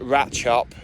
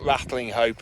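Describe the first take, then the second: First: The name is said in a short, clipped form. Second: The name is said in full with every syllable. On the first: This is how the locals say it. The speaker calls it right. "it's Ratchup" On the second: This is how an outsider reads it. The speaker calls it wrong. "not Rattling Hope"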